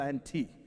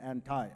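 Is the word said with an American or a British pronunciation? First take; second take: British; American. First: It is said with a British pronunciation. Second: It is said with an American pronunciation. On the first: "that's the way I pronounced with my British English as my background" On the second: "in American English, you will say anti"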